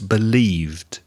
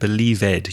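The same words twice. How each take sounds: First: The -ed ending adds no extra syllable. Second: The -ed ending is said as an extra syllable. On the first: The speaker calls it right. "No, it's believed" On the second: The speaker calls it wrong. "You added an extra syllable"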